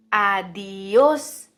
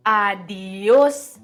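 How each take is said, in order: Both takes have the same delivery.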